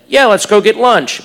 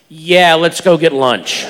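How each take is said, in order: First: It is said in a plain, neutral tone. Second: It is said in a knowing, suggestive tone.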